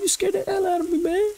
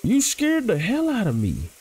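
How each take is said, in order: First: Even higher and fast, a hammed-up squeal; mock your own startled squeak on purpose; cartoonish high squeal, played for laughs; exaggerated squeaky voice. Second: Startled squeak that slips out. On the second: Real, not acted. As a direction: voice jumps much higher in a real startled squeak. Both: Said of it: "Why am I talking like that?".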